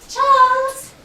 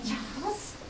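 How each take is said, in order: First: Louder, insistent Charles?; firmer call. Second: Faint, hesitant rising Charles?; soft questioning call. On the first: Mother demanding an answer from her son, louder. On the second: Mother nudging her son to speak, hushed. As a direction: ask Charles? gently, barely voiced. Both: Acted.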